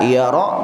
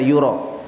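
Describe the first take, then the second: First: The word is said with 'a' vowels: yara. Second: The word is said with 'u' then 'o': yuro. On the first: He knows it is false. "Ini bisa dibaca yara" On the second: He supposes it is false. "bisa dibaca yuro"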